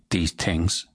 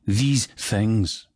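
First: The TH sounds are said the Irish way. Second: The TH sounds have a fuller buzz. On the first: "Unlike the Irish, who would say these things" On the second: "the Scots usually say these things. So, a fuller buzz on the THs"

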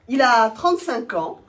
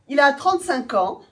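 First: It is said in an embarrassed tone. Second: It is said in a proud tone.

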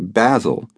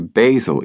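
First: Basil is pronounced the British way. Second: Basil is pronounced the American way. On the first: "they say Basil" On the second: "They don't say Basil either"

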